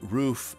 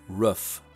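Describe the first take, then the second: First: It is said with the general American vowel. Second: It is said with the local Utah vowel. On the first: "how about saying roof" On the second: "as roof"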